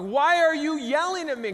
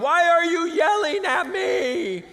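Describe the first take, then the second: First: High, loud mock protest; retold protest. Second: Slow, high, full-volume mock scream; mock yelling. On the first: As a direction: fire it back indignantly, loud and high. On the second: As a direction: stretch out an exasperated yell.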